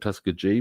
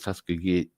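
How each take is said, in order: First: The G is said softly, like a J. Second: The G is said hard, like in go. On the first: The speaker calls it wrong. "I always pronounce it" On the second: The speaker calls it right. "The G is pronounced as a solid G rather than a J"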